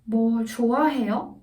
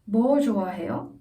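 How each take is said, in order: First: The stress falls on the verb. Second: The stress falls on the question word. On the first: Asks whether the person likes anything. "the verb is stressed rather than 뭐" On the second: Asks what exactly the person likes. "뭐, what is stressed? 좋아해요, not as much"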